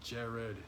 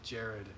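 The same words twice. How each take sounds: First: It is said in a deep grown man's voice. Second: The same.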